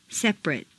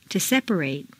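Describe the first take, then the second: First: "Separate" squeezed to "SEP-rut"; reduced ending. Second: "separate" ending in long "-RATE"; full A ending. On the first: Teacher models adjective "Separate" with reduced final vowel. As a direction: shrink the last vowel of "Separate". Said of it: "completely reduced". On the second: Teacher models verb "separate" with full final A. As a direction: open out the last A of "separate". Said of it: "it's a full A sound". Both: Shown as a demonstration.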